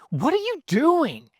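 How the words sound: It sounds angry and frustrated.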